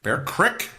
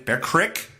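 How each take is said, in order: First: It is said in a Pennsylvania regional accent. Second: The same.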